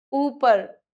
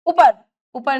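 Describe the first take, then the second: First: ऊपर with a held opening oo; long first vowel in ऊपर. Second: ऊपर begun with a short, punched u; quick first vowel in ऊपर; short-u error. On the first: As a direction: stretch ऊपर as "oo-par". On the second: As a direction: say ऊपर wrongly as "upar". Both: Shown as a demonstration. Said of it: "बड़े ऊ की मात्रा".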